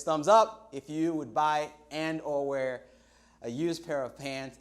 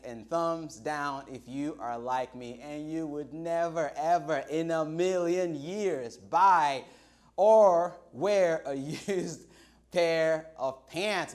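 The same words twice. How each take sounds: First: Said in the usual way. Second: Slow, louder, laughing disgust; never ever in a million years, said with a laugh; disgusted emphasis. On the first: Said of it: "pop quiz". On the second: Real, not acted. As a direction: spell out how gross it is, slowly and louder. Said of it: "because that is just nasty".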